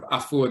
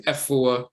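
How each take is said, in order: First: Afua with an open AH at the start; Asante Afua. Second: Efua starting with a short EH; Fanti Efua. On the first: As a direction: say Afua as ah-FOO-ah, not eh. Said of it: "In the Fanti dialect, they'll be called Efua. Instead of Afua". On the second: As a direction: say Efua as eh-FOO-ah. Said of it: "they'll say Efua". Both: Shown as a demonstration.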